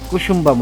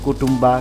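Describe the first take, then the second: First: The name is said as Kusumba, with an s sound. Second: The name is said as Kutumba, with t sounds. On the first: The speaker calls it right. "আসল নাম হচ্ছে" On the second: The speaker calls it wrong. "নামটা ভুল উচ্চারণ করেছি"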